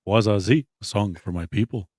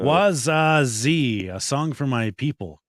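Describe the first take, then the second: First: It is said in the speaker's plain accent. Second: It is said in a put-on foreign accent.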